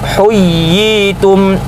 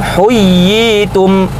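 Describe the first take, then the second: No difference in how they are said.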